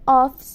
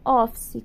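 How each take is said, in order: First: The word ends on the consonant, no final vowel. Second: The word ends with an added final vowel sound. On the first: The speaker calls it right. "A pronúncia de office, ela é office mesmo" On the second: The speaker calls it wrong. "Não é office, como a gente costuma falar"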